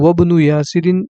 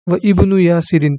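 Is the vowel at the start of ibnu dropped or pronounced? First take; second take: dropped; pronounced. First: The words are joined and ibnu loses its vowel. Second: The words are separate and ibnu keeps its vowel. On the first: "लेकिन मिलाकर पढ़ेंगे तो" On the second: "वह इब्नु यासिरिन था"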